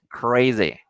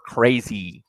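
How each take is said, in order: First: The final vowel sounds more like E. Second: The final vowel sounds more like I. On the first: "Se tiende a hacer un poco de E" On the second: "con I"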